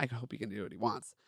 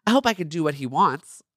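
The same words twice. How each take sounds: First: Softly corrected reread, stress on he; quiet correction. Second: Said in the usual way. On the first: Shown as a demonstration. Reader quietly corrects her misread line. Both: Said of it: "Okay, please. Not".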